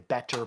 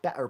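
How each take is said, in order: First: The middle consonant is a clear T sound. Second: The middle consonant is a glottal stop. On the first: "they don't say the T, they don't say better" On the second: "they say better"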